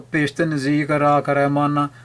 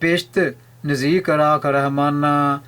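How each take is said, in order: First: It is read straight through without any pause. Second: There is a pause after the first word. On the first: Keep me near heaven. The speaker calls it wrong. "ਜੇ ਵਿਰਾਮ ਨਹੀਂ ਦਿੰਦੇ ਤਾਂ ਅਰਥ ਗਲਤ ਹੋ ਗਿਆ।" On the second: Keeping me near you is my heaven. The speaker calls it right. "ਤੋ ਵਿਰਾਮ ਹੈ ਪੇਸ਼ਤ"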